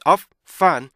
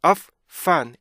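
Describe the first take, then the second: No difference in how they are said.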